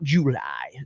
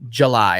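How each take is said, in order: First: The name is said with an Alabama pronunciation. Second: The name is said with a standard pronunciation. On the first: The speaker calls it wrong. "not July" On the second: The speaker calls it right. "I'll say it the right way for once"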